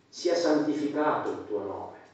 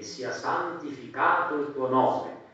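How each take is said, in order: First: It is said with natural speaking intonation. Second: It is recited in a flat, repetitive singsong. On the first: The words are meant as they are said. The speaker calls it right. "perché quando parlo dico questo" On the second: The words are said by habit without thought. The speaker calls it wrong. "lo recito a cantilena"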